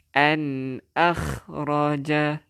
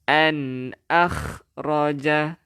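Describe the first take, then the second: First: An akhraja drawn out slowly, nun held clear; slow Quran recitation demo. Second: An punched loud, then akhraja drawn out slowly; teacher stressing the nun sakinah; stressed an. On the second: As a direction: hit an hard, pause, stretch akhraja. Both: Shown as a demonstration. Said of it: "Nampak tak nun mati ada tanda mati".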